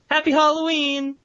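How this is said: It is said in a cheerful tone.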